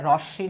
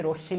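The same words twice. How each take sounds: First: রশ্মি as 'rawsh-shi', with an open first vowel; wrong pronunciation. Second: রশ্মি as 'rosh-shi', with a closed first vowel; correct pronunciation. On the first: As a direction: give রশ্মি the faulty open 'aw' sound. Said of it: "এটা ভুল কারণ". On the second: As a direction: give রশ্মি a rounded 'o' at the start. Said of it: "লিখলে ঠিক হতো". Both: Shown as a demonstration.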